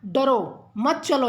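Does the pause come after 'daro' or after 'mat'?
after daro. There is a pause right after the first word. The listener is told not to go. "जैसे डरो के बाद लगा दिया"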